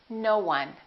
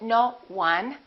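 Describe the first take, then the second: First: A w glide joins the two words. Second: The two words are said separately. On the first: The speaker calls it right. "We link it. We put a little w in there" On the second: The speaker calls it wrong. "We don't say no one"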